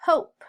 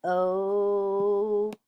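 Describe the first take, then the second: First: Said in the usual way. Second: "Hope" with a long, held O sound. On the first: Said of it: "Number three". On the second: Shown as a demonstration. Teacher sounding out hope as pupils write, drawn out. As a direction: stretch the O of "Hope" right out. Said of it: "O says O".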